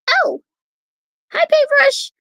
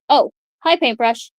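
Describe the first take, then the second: First: It is said in an attempted character voice. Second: It is said without a fitting character voice. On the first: The speaker calls it right. "I'll try to fix it" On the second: The speaker calls it wrong. "I probably should have not said it such in"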